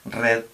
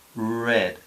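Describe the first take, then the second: First: The r is rolled with the tongue tip. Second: The r is smooth with the tongue curled back. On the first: The speaker calls it wrong. "mal pronunciada en inglés sería, eh, con la R española" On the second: The speaker calls it right. "doblar la lengua hacia atrás... Entonces queda como red"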